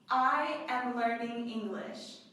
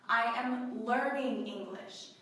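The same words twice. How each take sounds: First: The stress falls on the word I. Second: The stress falls on the word learning. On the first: The speaker, not someone else, is the learner. "The emphasis is on I" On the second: The speaker is still studying and not yet fluent. "you are still learning"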